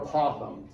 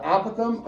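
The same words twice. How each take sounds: First: "apothem" with the stress in the middle, a-POTH-em; second-syllable stress. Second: "apothem" with the stress up front, AP-o-them; first-syllable stress. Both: Shown as a demonstration. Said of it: "is how you can say this".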